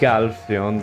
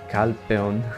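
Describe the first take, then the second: First: The name begins with a voiced g sound. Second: The name begins with a voiceless k sound. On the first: The speaker calls it wrong. "they don't say Galfeon" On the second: The speaker calls it right. "they say Calpeon"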